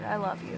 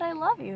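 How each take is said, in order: First: Said in the usual way. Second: Higher and louder so she can hear; louder repeat. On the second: Retold or imitated. Repeating to grandma who didn't hear, louder. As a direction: say it again, clearly, for her to hear.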